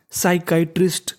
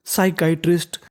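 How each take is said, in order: Both takes have the same delivery.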